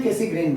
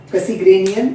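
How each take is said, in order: First: Cassegrain, no ian at the end; Cassegrain pronunciation. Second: Cassegrainian, stretched to cass-e-grain-ian; lightly teasing Cassegrainian; Cassegrainian pronunciation. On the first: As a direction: say Cassegrain plainly, ending on grain. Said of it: "तो मैं Cassegrain बोलता हूँ". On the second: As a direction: say Cassegrainian with the extra ending ian. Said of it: "बहुत सारे बच्चे इसको Cassegrainian भी बोलते हैं". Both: Shown as a demonstration.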